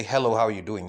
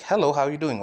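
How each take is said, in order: First: Said in the usual way. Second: "Hello" hit with extra weight; stress on Hello. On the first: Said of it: "they're gonna be like". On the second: Shown as a demonstration. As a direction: lean hard on "Hello" and drop after it. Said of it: "emphasize just one word".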